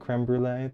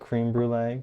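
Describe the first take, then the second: First: The first word has a short 'eh' vowel. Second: The first word sounds like English 'cream'. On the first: The speaker calls it right. "creme brulee. That makes more sense" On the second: The speaker calls it wrong. "Not cream brulee"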